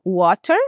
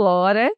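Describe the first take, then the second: First: Water said with a rounded wo and a clear final e; other accents' water. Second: Said in the usual way. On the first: Shown as a demonstration. Teacher contrasting her water with other accents. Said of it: "mas outros falam water". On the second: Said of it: "Eu falo water".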